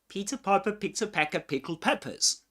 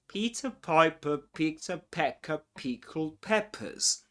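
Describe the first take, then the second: First: It is said fast, in one go. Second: It is said slowly, in chunks.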